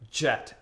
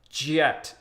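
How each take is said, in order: First: The word is said at an ordinary speed. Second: The word is drawn out and said slowly.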